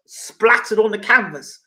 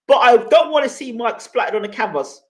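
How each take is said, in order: First: Slow, savouring repeat of Splattered on the canvas; slowed sarcastic repeat of the viewer's words; mocking echo. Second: Said in the usual way. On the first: Shown as a demonstration. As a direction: drag the words out in mock disbelief. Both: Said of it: "Exactly what would happen".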